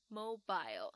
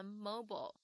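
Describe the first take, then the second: First: Mobile ending in "bile", MO-bile; 英式发音mobile; British pronunciation. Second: Mobile ending in "bull", MO-bull; 美式发音mobile; American pronunciation. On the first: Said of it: "但是英式发音的话呢，就要念成". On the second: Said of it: "美式英文的话，我们会念成". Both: Shown as a demonstration.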